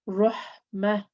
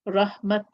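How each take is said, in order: First: The word ends with a breathy h sound. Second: The word ends with a t sound. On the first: The reader stops on this word. "if I'm stopping on the letter... my breath comes out" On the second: The reader continues past this word. "When continuing reading, I will pronounce it as a ta"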